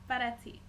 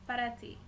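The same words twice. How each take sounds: No difference in how they are said.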